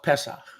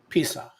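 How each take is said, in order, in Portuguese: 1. A primeira vogal soa como 'e'. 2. A primeira vogal soa como 'i'. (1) "The original Codex, no vowels" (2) "the rabbis got a hold of it, and Pesach became what?"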